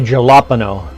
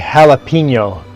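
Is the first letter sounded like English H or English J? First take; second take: J; H. First: The first sound is an English J sound. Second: The first sound is a breathy H sound. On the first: The speaker calls it wrong. "They don't say jalapeno" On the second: The speaker calls it right. "Canadians all know how to say jalapeno"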